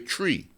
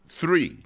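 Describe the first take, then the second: First: The word starts with a plain t sound. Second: The word starts with a th sound. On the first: "I would say tree" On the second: "I could not say the, the letter uh, th"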